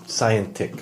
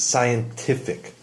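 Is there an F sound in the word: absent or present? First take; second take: absent; present. First: The word is said without an F sound. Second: The word is said with an F sound. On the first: The speaker calls it wrong. "like without an F" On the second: The speaker calls it right. "an F is, is added in there"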